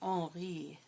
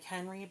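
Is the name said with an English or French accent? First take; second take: French; English. First: The name is said with a French accent. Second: The name is said with an English accent.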